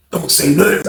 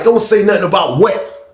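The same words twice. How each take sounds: First: Understated, held-back request for secrecy; confiding warning. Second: Higher, slow incredulous question; baffled echo question. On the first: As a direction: ask him to keep it to himself. Roommate confides, asks secrecy. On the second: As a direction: throw the warning back as a question. Echoes roommate as baffled question. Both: Retold or imitated.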